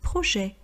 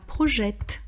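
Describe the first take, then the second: First: The final t sound is silent. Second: The final t sound is pronounced. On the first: The speaker calls it right. "on ne prononce pas la dernière consonne" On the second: The speaker calls it wrong. "on ne dit pas projette"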